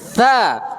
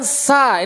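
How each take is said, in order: First: The consonant is a soft 'th' sound. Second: The consonant is a plain hissing 's' sound. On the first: The speaker calls it right. "diletakkannya ujung lidah dengan ujung gigi seri atas" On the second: The speaker calls it wrong. "bukan terucap dengan sa. Ini salah"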